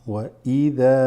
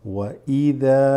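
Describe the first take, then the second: Both takes have the same delivery.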